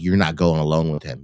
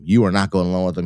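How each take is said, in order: First: Said in the usual way. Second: "You are not" stretched out, louder and faster, every word hit; insist, leaning on "are" and "not"; an insistent friend repeating her warning, louder and firmer; emphatic repeat. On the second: Retold or imitated. Shannon repeating warning more emphatically.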